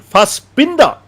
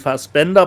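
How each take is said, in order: First: The middle syllable has an 'i' vowel, like 'bin'. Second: The middle syllable has an 'e' vowel, like 'ben'. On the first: The speaker calls it wrong. "they keep saying Fassbinder in the trailer, and it's hilarious" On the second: The speaker calls it right. "because it's actually Fassbender"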